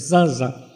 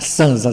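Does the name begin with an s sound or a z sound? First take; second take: z sound; s sound. First: The name begins with a buzzing z sound. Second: The name begins with a hissing s sound. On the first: "eu estou pronunciando Zanza" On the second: "mas pode se pronunciar Sanza"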